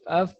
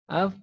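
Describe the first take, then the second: First: The f is puffed loosely, like an angry child. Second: The f uses the inner lower lip against teeth. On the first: The speaker calls it wrong. "Sebagaimana anak-anak kalau marah af af af af ya. Bukan" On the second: The speaker calls it right. "tapi yang dipakai perut bibir bagian bawah"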